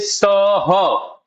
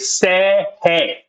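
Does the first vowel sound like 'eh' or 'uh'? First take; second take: uh; eh. First: The vowels are a short 'uh' sound. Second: The vowels are an 'eh' sound. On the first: The speaker calls it wrong. "we we don't say sir her" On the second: The speaker calls it right. "We we say say hey"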